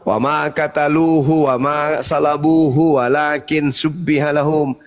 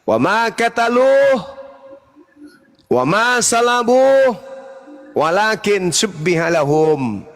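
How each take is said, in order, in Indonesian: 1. Frasa-frasa itu disambung tanpa jeda di antaranya. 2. Frasa-frasa itu dipotong dengan jeda di antaranya. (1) "kalau saya baca langsung" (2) "saya penggal"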